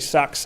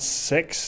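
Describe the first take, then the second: First: The vowel sounds like the one in cat. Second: The vowel sounds like the one in sit. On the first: "I've heard people say Sax and Six, and I think Sax is what they've, kind of advised" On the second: "I've heard people say Sax and Six"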